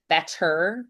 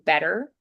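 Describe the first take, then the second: First: The middle consonant is a crisp T sound. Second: The middle consonant is a soft D sound.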